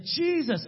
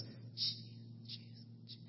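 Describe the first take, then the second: First: High-pitched imitated breakthrough cry; getting louder. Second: Barely audible, voiceless broken attempts; mute man struggling. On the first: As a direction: act out the mute man finally getting it out. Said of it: "he gets louder and louder". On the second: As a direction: imitate a mute man straining out first syllables. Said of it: "starts like this".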